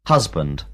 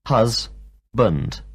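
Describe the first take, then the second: First: Said in the usual way. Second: Hus-bund split into two beats; teacher breaking hus-bund into its two syllables. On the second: Shown as a demonstration. Teacher to class, splitting hus-bund into two syllables. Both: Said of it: "two syllables in the word".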